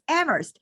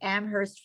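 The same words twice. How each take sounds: First: The H in the word is silent. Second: The H in the word is sounded. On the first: The speaker calls it right. "it's Amherst" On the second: The speaker calls it wrong. "I called it Amherst for the longest time"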